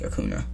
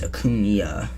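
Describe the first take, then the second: First: The middle consonant is a plain 'n' sound. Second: The middle consonant is a 'ny' sound. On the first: The speaker calls it wrong. "not like Acuna" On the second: The speaker calls it right. "because it's like the Enye over the thing"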